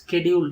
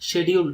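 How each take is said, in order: First: The word begins with an sk sound. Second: The word begins with an sh sound. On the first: "American இங்கிலீஷ்ல உச்சரிக்கும் போது" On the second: "British இங்கிலீஷ்ல உச்சரிக்கும் போது"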